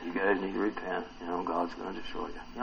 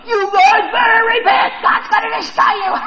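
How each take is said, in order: First: Low, soft, subdued warning; understated warning. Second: Very high, loud mock shriek; shrieked warning. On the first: Acted. Preacher wonders how Jonah warned the city, quiet and understated. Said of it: "I wonder if he did that". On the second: Preacher imagines Jonah threatening the city, high hammed-up shout. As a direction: screech it out as a hammed-up threat of doom. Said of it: "I wonder if he's like".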